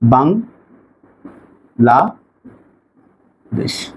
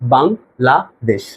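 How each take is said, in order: First: The word is split with pauses between syllables. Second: The word is said smoothly without any pauses. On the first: "মাঝখানে আমি part by part কিন্তু থামতে পারছি" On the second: "আমি একবার বলতে পারছি বাংলাদেশ"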